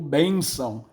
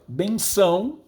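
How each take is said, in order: First: The stress is on the first syllable. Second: The stress is on the last syllable. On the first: This is the modern form of the word. "palavra paroxítona" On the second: This is the old form of the word. "era uma palavra oxítona"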